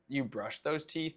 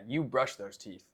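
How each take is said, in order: First: It is said as a question, rising. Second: It is said as a statement, falling.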